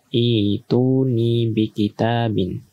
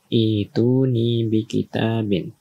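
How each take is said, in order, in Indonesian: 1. Frasa ini diawali dengan bunyi 'i'. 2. Frasa ini diawali dengan bunyi 'i'.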